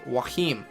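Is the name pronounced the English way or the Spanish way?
Spanish. The name is said with Spanish sounds. "people that play that know Spanish, and they pronounce it as Joachim"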